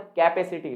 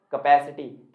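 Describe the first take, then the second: First: कैपेसिटी as KAI-pe-si-ti; common mispronunciation. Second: कैपेसिटी as kuh-PASS-i-ti; short "kuh" opening कैपेसिटी, open second vowel; correct pronunciation. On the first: Teacher recalling the usual habit, common mispronunciation. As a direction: say कैपेसिटी as "cape-city" with kai first. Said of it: "सबसे ज्यादा बोलते हैं हम". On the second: Teacher giving friends the answer, correct pronunciation. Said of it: "सही pronunciation क्या है दोस्तों". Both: Shown as a demonstration.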